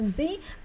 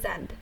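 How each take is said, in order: First: The letter is said the American way. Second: The letter is said the British way. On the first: "in American pronunciation we pronounce it as the Z" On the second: "if we want to pronounce it as the British English"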